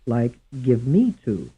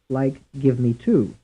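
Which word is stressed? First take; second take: me; two. First: The stress falls on the word me. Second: The stress falls on the word two. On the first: "Some stressed on the second syllable" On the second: "And some stressed on the third syllable"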